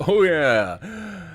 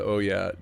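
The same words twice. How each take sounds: First: Big booming laughing "oh yeah"; loud "oh yeah" imitation. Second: Said in the usual way. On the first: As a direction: shout it out like the alert sound. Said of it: "heard the "oh yeah". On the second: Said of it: "Hopefully you guys heard the".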